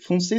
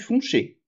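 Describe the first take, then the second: First: The middle consonant is an s sound. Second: The middle consonant is an sh sound. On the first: This is the French form. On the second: This is the Picard form.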